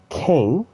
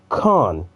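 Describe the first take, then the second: First: The name is said with an 'ay' vowel. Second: The name is said with an 'ah' vowel. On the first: The speaker calls it wrong. "It's not Kane" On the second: The speaker calls it right. "it's Khan"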